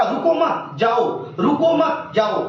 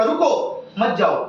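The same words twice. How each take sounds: First: रुको मत run together, pause, then जाओ; group it as "रुको मत", break, "जाओ"; pause after मत. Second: रुको alone, pause, then मत जाओ together; pause after रुको. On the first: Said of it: "मतलब करंट को बोलेगा". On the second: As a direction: break right after रुको, joining मत to जाओ. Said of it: "की तरह, जो बोलेगा". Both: Shown as a demonstration.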